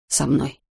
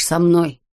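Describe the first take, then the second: First: Said in the usual way. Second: «со мной» pressed firmly, with weight on «мной»; emphatic «со мной», stressing «мной»; insistent repeat. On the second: A narrator's reading. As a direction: drive home «со мной», falling at the end. Insistent repeat after «Понимаешь».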